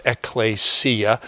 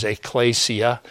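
First: Ecclesia said the Greek way, opening on a crisp "ek"; ecclesia in Greek, with "ek" set before "klay-see-a"; Greek pronunciation. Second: Ecclesia said the Latin way, opening on a light "ay"; ecclesia in Latin, running smoothly into "klay-see-a"; Latin pronunciation. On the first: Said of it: "In Greek, it's pronounced". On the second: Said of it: "In Latin, the word is". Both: Shown as a demonstration.

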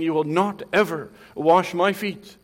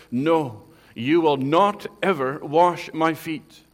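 First: Loud rebuke; rebuking. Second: Loud, slow, firm no; emphatic refusal. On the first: Peter rebuking Christ over the foot washing, loud and scolding. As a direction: scold him as if correcting the master. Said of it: "like he's rebuking Christ". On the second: Peter refusing to let Jesus wash his feet, loud and emphatic. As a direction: refuse him flat out, hammering each word. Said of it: "Peter emphatically says". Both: Retold or imitated.

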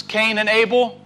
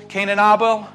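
First: Abel as AY-bel; "Abel" with the first vowel as in "day"; American way. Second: Abel as AH-bel; "Abel" with the first vowel as in "father"; other side of the world. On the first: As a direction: say "Abel" with a long AY sound, AY-bel. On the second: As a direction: say "Abel" with an open AH sound, AH-bel. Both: Shown as a demonstration. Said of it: "Or if you're from this side of the world".

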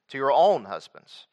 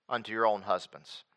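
First: "own" lifted, then falling away on husbands; stress on own. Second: Said in the usual way. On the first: Real, not acted. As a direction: lean on the word "own" with a rise and fall. Repeats verse to point out own.

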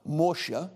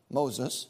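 First: Moshe said the Hebrew way, MO-sheh; Hebrew name Moshe. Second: Said in the usual way. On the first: Shown as a demonstration. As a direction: give Moshe its Hebrew sound, two syllables, stress first.

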